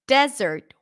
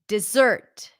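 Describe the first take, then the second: First: The stress is on the first syllable. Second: The stress is on the second syllable. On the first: A dry area of land with sand and rocks. "where the stress is on the first syllable" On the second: Sweet food served after the main meal. "Stress is on the second syllable"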